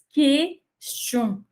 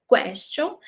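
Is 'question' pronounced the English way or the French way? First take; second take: French; English. First: It is said with a French pronunciation, mouth open. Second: It is said with an English pronunciation. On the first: The speaker calls it right. "essa segunda abertinha, mais aberta, é do francês" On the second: The speaker calls it wrong. "Essa primeira pronúncia é do inglês"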